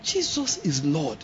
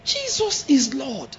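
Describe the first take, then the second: First: Slow, soft awed praise; soft declaration. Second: Slow, higher startled praise; shocked exclamation. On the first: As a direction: murmur it slowly in wonder. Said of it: "If I have to explain". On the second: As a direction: let it out in surprise. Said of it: "let them hear it". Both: Shown as a demonstration.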